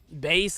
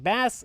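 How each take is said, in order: First: It is pronounced unlike the fish word. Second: It is pronounced like the fish word. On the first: The name sounds cool. The speaker calls it right. "it's like that's kind of like cool" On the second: The name sounds harmless. The speaker calls it wrong. "it's a fish, you know, uh, not really all that threatening"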